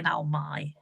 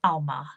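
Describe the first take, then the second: First: "Almai" with the ending said like "my"; mistaken pronunciation. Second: "Alma" ending in an open "ah", not "my"; corrected pronunciation. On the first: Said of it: "I'm sorry for saying Almai". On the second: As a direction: say "Alma" as AL-mah. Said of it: "Now I know". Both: Shown as a demonstration.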